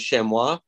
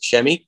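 First: The word is given a non-Australian pronunciation. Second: The word is given the Australian pronunciation. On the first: "also known as chamois, if you pronounce it like that" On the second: "here in Australia, I think we pronounce it chamois"

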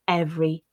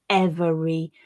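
First: The middle syllable is dropped from the word. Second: The word is said with an extra middle syllable. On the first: The speaker calls it right. "they tend to be reduced to" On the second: The speaker calls it wrong. "my learners would often read as"

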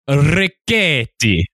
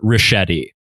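First: The name is said with an Italian pronunciation. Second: The name is said with an English pronunciation. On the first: The speaker calls it right. "the proper pronunciation, again, thank you, dear listener, is actually, and I'm going to put up my Italian hands here" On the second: The speaker calls it wrong. "we have been saying Ricchetti"

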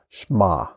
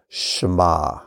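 First: The word is squeezed into one syllable. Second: The word is said as two syllables. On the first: "some pronounce it as one" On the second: "I pronounce it with two syllables"

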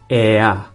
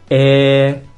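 First: The vowel glides into a schwa at the end. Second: The vowel is one long steady sound. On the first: "these might be instead given a schwa quality at the end and turned into diphthongs" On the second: "the last 2 long vowels that I'll use in Australian English in my pronunciation"

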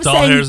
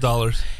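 First: The second part sounds like the word hairs. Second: The second part is a short unstressed lers. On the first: "doll hairs instead of dollars" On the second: "instead of dollars"

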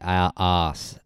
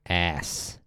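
First: It is said the Australian way, like arse. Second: It is said the American way, like ass. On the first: "Australians are supposed to say ass, A-R-S-E" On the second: "And Americans say A-S-S, like ass"

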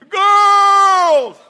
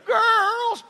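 First: It is a loud, full shout. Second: It is a weak, feeble call.

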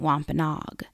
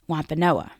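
First: The name ends with a final g sound. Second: The name ends without a final g sound. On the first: The speaker calls it right. "but she pronounced it Wampanoag" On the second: The speaker calls it wrong. "that said to pronounce the name Wampanoa"

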